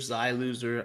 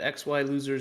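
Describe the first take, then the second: First: The first part is said as one syllable. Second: The first part is spelled out as two letters. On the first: "It's more fluid when casting" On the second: "X Y loser, Xi loser, I feel like we've used that interchangeably"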